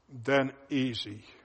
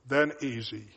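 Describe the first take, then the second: First: It is read slowly. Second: It is read at a normal pace.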